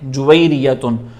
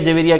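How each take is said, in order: First: The name begins with 'ju' and ends 'tun'. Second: The name begins with 'ja' and ends 'ria'. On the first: This is the original form of the name. The speaker calls it right. "असल pronunciation उसकी है जुवैरियतुन" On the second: This is how people locally say it. The speaker calls it wrong. "हमारे यहाँ पे जवेरिया जवेरिया कहते हैं"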